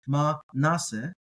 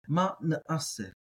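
First: The middle syllables run together without a stop. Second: A guttural stop separates the middle syllables. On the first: "You might hear ma nase, and that's fine" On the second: "I'm going to get that ayin in there"

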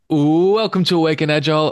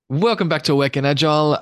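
First: It is said like a wrestling announcer. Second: It is said in a normal speaking voice.

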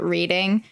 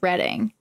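First: It is said the way outsiders commonly say it. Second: It is said the way local people say it. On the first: The speaker calls it wrong. "everyone always pronounces it Reading" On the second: The speaker calls it right. "but it's Reading"

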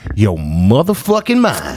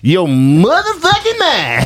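First: It is said in the speaker's ordinary voice. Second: It is said in an imitated comedian's voice.

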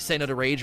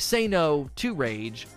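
First: It is run together fast. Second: Each word is spoken slowly and separately.

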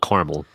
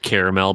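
First: The word is said with two syllables. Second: The word is said with three syllables. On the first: This is how Americans commonly say it. "this is America, darn it. We call it caramel" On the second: This is how the candy is supposedly meant to be called. "the nougat-y candy is supposed to be called caramel"

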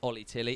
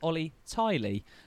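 First: The surname has a short first vowel. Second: The surname has a long first vowel. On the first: The speaker calls it wrong. "who we pronounced last time as Ollie Tilly is not Ollie Tilly" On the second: The speaker calls it right. "it is at Ollie Tiley"

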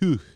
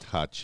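First: The vowel sounds like the 'oo' in 'hooch'. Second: The vowel sounds like the 'u' in 'hutch'. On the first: The speaker calls it right. "It's like Hooch" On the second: The speaker calls it wrong. "but it's not Hutch"

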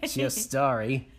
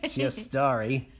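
First: It is said in an attempted put-on accent. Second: The same.

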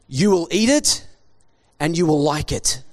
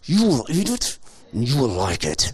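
First: It is said in a normal, relaxed voice. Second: It is said forcefully through clenched teeth.

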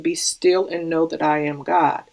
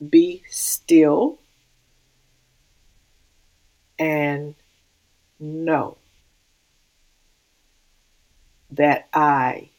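First: The sentence is read at a quick pace. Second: The sentence is read at a slow pace. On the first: "if we read it a little bit faster" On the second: "But when we slow it down"

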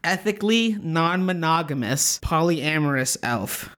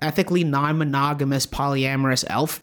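First: It is said slowly and carefully. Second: It is said at normal, quick speed.

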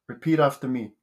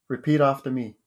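Both takes have the same delivery.

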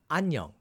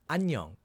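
No difference in how they are said.

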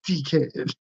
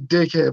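First: It is said in a British accent, vowel stretched. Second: It is said in a plain, non-British accent. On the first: "when you say it with a British accent, ... instead of one I is three E's" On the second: "I say it the way of like"

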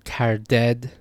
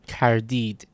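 First: The last syllable has an 'eh' vowel. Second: The last syllable has an 'ee' vowel. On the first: "In Dari and in Tajik, this is pronounced eh, or a" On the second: "that ya is pronounced as an e in Iran"

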